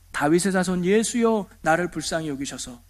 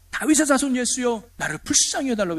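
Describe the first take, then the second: First: Said in the usual way. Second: Higher, urgent plea as if calling out; mock crying out. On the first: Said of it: "이렇게 말합니다". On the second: Blind beggar calling to Jesus for mercy, restrained mock cry. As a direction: imitate a beggar's cry, without full volume. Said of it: "꽥꽥 소리 지르면서".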